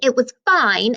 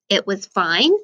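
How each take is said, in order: First: It is said in an annoyed, upset tone. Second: It is said in a plain, neutral tone.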